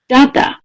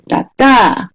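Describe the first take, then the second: First: The stress is on the first syllable. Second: The stress is on the second syllable. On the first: "The first syllable is stressed more than the second syllable" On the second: "B, sustain"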